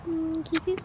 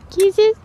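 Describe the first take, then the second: First: Quiet kisses; soft kisses. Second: Kisses higher and loud; sudden loud high kisses. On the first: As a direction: coo the word kisses softly. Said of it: "repeats kisses softly then loudly". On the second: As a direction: burst out kisses. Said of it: "repeats kisses loudly". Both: Real, not acted.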